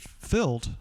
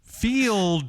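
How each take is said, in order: First: Field is said like filled, Oklahoma style. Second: Field is said with a long clear vowel.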